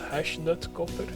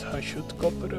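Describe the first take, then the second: First: The first part sounds like Hashnut. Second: The first part sounds like Hashut. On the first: This is how the speaker used to say it. The speaker calls it wrong. "I always thought it was" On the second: This is how the name is really said. The speaker calls it right. "but it's Hashutkopper apparently"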